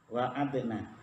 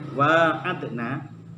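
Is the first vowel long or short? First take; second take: short; long. First: The first vowel is kept short. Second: The first vowel is drawn out long. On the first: This is another accepted reading. "wanya pendek" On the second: This is the reading written in the Quran. "Nek teng Al-Qur'an kan panjang gini loh"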